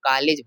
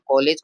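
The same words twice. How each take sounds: First: The first vowel is an open 'ah' sound. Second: The first vowel is a rounded 'aw' sound. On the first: This is how people in Bihar say it. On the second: This is the standard English-based pronunciation.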